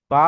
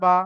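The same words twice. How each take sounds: First: "বা" with a long held vowel; one-alif stretch. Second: Final "বা" short, not held; zero stretch. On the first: Teacher demonstrating the letter to students, "বা" drawn out. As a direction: hold the vowel of "বা". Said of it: "বাটাকে এক আলিফ টান দিলাম". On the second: Teacher demonstrating zabar to students, "বা" kept short. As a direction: release "বা" without lengthening the vowel. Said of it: "zero টান দিলাম". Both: Shown as a demonstration.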